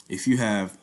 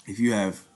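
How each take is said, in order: Both takes have the same delivery.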